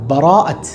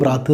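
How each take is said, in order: First: The first vowel is pronounced, giving bara'ath. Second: The first vowel is dropped, giving brath. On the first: The speaker calls it right. "ബ്രാത്തല്ല, ബറാഅത്ത്" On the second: The speaker calls it wrong. "നമ്മൾ സാധാരണ പ്രയോഗിക്കുന്നത് എങ്ങനെയാണ്? ബ്രാത്ത്"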